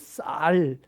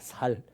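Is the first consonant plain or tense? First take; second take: tense; plain. First: The first consonant is tense and strong. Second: The first consonant is plain and soft. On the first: The speaker calls it right. "쌀 발음 해보세요" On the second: The speaker calls it wrong. "그러면 살이라고 합니다"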